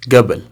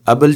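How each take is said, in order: First: It is said the local way. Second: It is said the Egyptian way. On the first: "हम लोग यहाँ पे बोलते हैं गबल" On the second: "मिस्र के लोग बोलते हैं इस तरह से"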